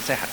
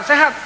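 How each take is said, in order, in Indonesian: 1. Diucapkan dengan pelan, dengan suara rendah. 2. Diucapkan dengan keras, hampir berteriak. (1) "Pasti akan pelan suara saya" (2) "Pasti agak teriak"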